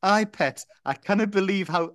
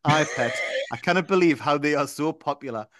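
First: Hammed-up Geordie for Andrew; Geordie accent. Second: A touch of Geordie, less pushed; easing off the Geordie a little; lighter Geordie accent. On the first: Reading Andrew's line in a put-on Geordie accent. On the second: Acted. Reading on in a milder Geordie accent. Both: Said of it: "I don't know why I'm putting the accent on".

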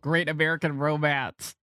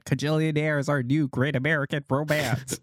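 First: Said in the usual way. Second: Put-on old Hollywood transatlantic accent; grand old Hollywood transatlantic voice. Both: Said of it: "that's your transatlantic accent?".

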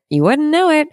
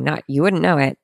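First: Much higher and louder, playful self-mockery; high squeal. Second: Said in the usual way. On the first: Shown as a demonstration. Joking with listeners about her scripting, high squeal. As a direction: squeak it up high in mock protest. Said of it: "repeat jumps high". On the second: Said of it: "repeated phrase".

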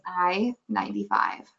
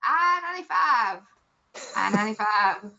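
First: Flat Iowa bingo call, a bit lower; toned-down Iowa accent bingo call; dumbed-down Iowa call. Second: Put-on old bingo call. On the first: Retold or imitated. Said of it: "but now it's more like". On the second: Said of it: "It used to be like".

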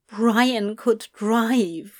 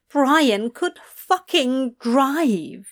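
First: Slow, stunned; slow dread. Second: "fucking" hit harder and higher, slow; stress on fucking. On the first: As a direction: let it sink in slowly. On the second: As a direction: lean on "fucking" in horror. Repeated with stronger emphasis. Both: A narrator's reading.

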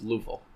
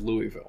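First: Louisville in two syllables, no "ee": "LOO-vul"; local Louisville. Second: Louisville in three full syllables, "LOO-ee-vil"; mispronounced Louisville. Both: Shown as a demonstration. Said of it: "No one says Louisville".

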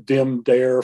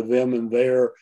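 First: "dim dare" with hard d for th; immigrant-influenced sounds. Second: Said in the usual way. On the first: Shown as a demonstration. Linguist showing immigrant traces, "dim dare" with d for th. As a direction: start "dim" and "dare" on a d, as in "dem dere". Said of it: "way that vowels are pronounced". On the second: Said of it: "for them and their".

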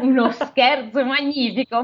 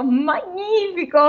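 First: Said in the usual way. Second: "magnifico" stretched slow and high; savoured repeat. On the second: Shown as a demonstration. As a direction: drag out "magnifico" higher, relishing it.

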